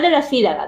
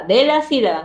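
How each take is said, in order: First: Said in the usual way. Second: "de la sílaba" with strong emphasis on "sílaba"; emphatic correction. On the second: Shown as a demonstration. Teacher clarifying syllable, not word, "de la sílaba" said emphatically. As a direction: stress "de la sílaba" as the point not to miss. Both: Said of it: "no de la palabra".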